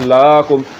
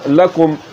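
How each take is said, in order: First: The first vowel is drawn out long. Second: The first vowel is kept short. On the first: The speaker calls it wrong. "अगर इसको पढ़ दिया लाकुम, तो फिर आप इस्लाम को पढ़ रहे हैं जिस पर खड़ा ज़बर है" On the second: The speaker calls it right. "इसको लंबा नहीं करना"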